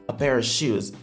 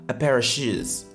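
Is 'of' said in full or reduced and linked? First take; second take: reduced; reduced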